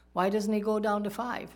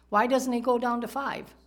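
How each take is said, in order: First: Said in the usual way. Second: Higher and louder rhetorical question; emphatic question. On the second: Real, not acted. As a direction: press the crowd with it. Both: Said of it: "He stops at ten".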